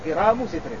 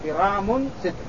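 First: The first word ends without an added n sound. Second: The first word ends with an added n sound. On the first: "بحذف التنوين والإضافة" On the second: "بكسر القاف وتخفيف الراء والتنوين"

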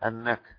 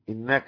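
First: The word begins with an 'a' vowel. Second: The word begins with an 'i' vowel. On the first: "والباقي بالفتح" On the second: "بالكسر"

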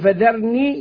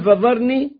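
First: The dh is light and the r is light. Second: The dh is heavy and the r is heavy. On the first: "رققنا الراء" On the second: "قلبنا الذال ضاء أو فخمناها"

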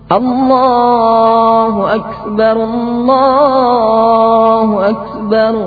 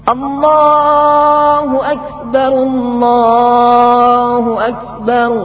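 No difference in how they are said.

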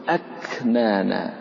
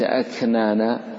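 First: The k is a full stop, then released. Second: The k is softened into a breathy, continuous sound. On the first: The speaker calls it right. "تقول أكنانا" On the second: The speaker calls it wrong. "وليس أكنانا"

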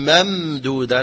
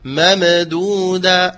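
First: The middle m is smooth with no bounce. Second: The middle m is bounced with an echo. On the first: The speaker calls it right. "فهي حرف متوسط، يقول ممدودة" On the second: The speaker calls it wrong. "لا يقول ممدودة"

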